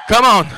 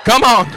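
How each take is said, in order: Both takes have the same delivery.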